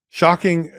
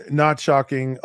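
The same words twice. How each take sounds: First: Shocking said high and loud, mock surprise; ironic shocking. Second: Not shocking, with the stress on not; deadpan correction. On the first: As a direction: play Shocking as a fake gasp. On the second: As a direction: flatly take it back, leaning on not. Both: Real, not acted.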